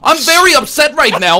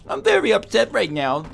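First: It is said in a plain, sincere tone. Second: It is said in a mocking, condescending tone. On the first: Real distress is being expressed. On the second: The complaint is being mocked.

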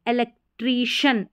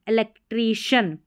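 Both takes have the same delivery.

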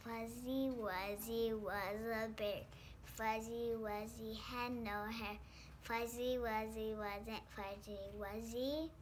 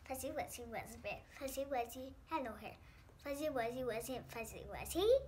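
First: It is said at a normal pace. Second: It is said fast.

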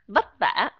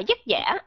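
First: The words begin with a v sound. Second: The words begin with a y sound. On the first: This is how Northern speakers say it. "giọng của người miền Bắc, giọng chuẩn đó là âm vờ" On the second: This is how Southern speakers say it. "Người miền Nam thì họ đọc là"

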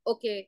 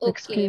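First: It is said curtly, without warmth. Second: It is said warmly, with a smile. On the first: The speaker is dismissive. The speaker calls it wrong. "ओके ऐसे नहीं" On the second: The speaker is polite and friendly. The speaker calls it right. "ओके with a smile"

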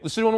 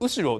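First: The pitch accent is not on the first syllable. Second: The pitch accent is on the first syllable.

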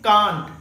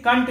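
First: It has a British long 'ah' vowel. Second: It has an American short 'a' vowel.

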